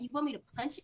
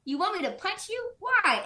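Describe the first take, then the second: First: Said in the usual way. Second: High-pitched incredulous question; imitated stunned protest, pitch jumping up; shocked disbelief. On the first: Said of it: "Bonnie's freaking out". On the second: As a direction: ask it as if freaking out. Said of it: "like, super surprised".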